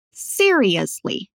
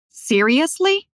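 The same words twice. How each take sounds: First: Said in the usual way. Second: "Seriously" as a question, climbing high at the end; shocked questioning intonation. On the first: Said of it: "depois a gente repete a palavra". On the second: Shown as a demonstration. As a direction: ask "Seriously" in disbelief, pitch rising. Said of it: "Agora com a entonação dela". ("Seriously" com entonação de pergunta chocada)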